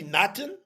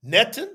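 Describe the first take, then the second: First: Natan with AH in the first syllable; corrected pronunciation. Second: Netan with EH in the first syllable; questioned pronunciation. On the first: Teacher correcting the first half of the name, Natan as NAH-tan. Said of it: "it should be Natan". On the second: Teacher giving the reading to be corrected, Netan as NEH-tan. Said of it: "or it should be Natan". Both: Shown as a demonstration.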